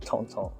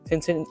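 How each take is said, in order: First: The name has a French pronunciation. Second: The name has an English pronunciation. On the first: The speaker calls it right. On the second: The speaker calls it wrong.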